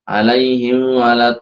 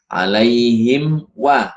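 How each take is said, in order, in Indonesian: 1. Huruf m kabur menyatu dengan w setelahnya. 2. Huruf m diucapkan dengan jelas sebelum w. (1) "Jangan sampai seperti itu" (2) "harus dibaca izhar"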